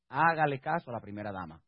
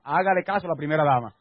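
First: Low, soft delivery; quietly delivered punchline of advice; understated advice. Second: Firmer, fuller-voiced instruction; firm preacher's exhortation; emphatic repeated advice. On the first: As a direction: drop the voice low to slip in the advice. First take of advice, repeated louder. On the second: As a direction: push the advice out to the whole congregation. Repeats after only three ladies responded. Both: Real, not acted.

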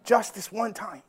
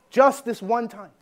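First: A hint of a softer, sly tempter; devil's tempting voice. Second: Slow, weighted sermon title; slow title read. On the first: Preacher voicing the devil tempting him to give in, softly coaxing. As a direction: coax it gently like the devil whispering. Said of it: "this is like the voice of the devil talking to me". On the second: Shown as a demonstration. Preacher announcing his sermon title, slow and deliberate. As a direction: lay each word down slowly like a headline. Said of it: "I have a sermon called Just This One Time".

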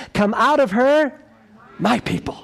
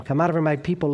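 First: Voice from heaven. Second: Said in the usual way. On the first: A narrator's reading. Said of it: "another voice from heaven". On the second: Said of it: "We have got to share them".

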